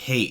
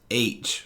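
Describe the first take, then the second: First: The letter is said with an initial h sound. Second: The letter is said without an initial h sound. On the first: The speaker calls it wrong. "It sounds like you're saying hate" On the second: The speaker calls it right. "with an A"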